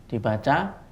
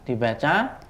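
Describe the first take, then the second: No difference in how they are said.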